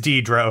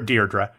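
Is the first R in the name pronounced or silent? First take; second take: silent; pronounced. First: The first r sound is silent. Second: The first r sound is pronounced. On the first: The speaker calls it right. "The first R is silent. It's Deirdre O'Connell" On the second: The speaker calls it wrong. "Here's the problem. They called her Deirdre"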